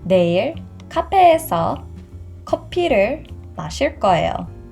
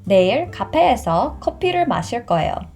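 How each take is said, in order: First: The sentence is spoken at a slow pace. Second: The sentence is spoken at a fast pace. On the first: "the second time I will say it much slower" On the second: "The first time I will say fast"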